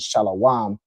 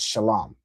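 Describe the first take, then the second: First: An extra vowel is added inside the word. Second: No extra vowel is added inside the word. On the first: This is how impostors say it. The speaker calls it wrong. "they run around here saying Shalawam" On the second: This is the original form of the word. The speaker calls it right. "the original word without any vowel added is Shalom"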